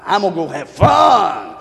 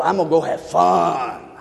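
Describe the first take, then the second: First: Louder Gomer. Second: Said in the usual way. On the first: Retold or imitated. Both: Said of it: "You know what she's gonna do?".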